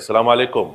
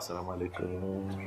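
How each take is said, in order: First: The greeting is loud and sounds angry. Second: The greeting is soft and gentle. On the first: It could be misunderstood as anger. The speaker calls it wrong. "Dia sudah faham. Itu bukan marah" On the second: It comes across as polite and friendly. The speaker calls it right. "Makanya saya rubah"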